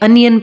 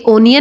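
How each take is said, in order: First: The first vowel sounds like 'uh'. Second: The first vowel sounds like 'o'. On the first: The speaker calls it right. "बल्कि अनियन पढ़ा जाता है" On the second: The speaker calls it wrong. "ये ओनियन नहीं"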